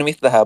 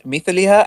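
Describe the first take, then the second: First: مثلها said "mith-la-ha"; مثلها with short a. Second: مثلها said "mith-li-ha"; مثلها with short i. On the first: Debater compares two readings, مثلها as "mithlaha". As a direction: sound an "a" after the l in مثلها. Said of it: "other readers who read it as". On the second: Debater compares two readings, مثلها as "mithliha". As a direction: sound an "i" after the l in مثلها. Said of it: "there is no difference between". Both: Shown as a demonstration.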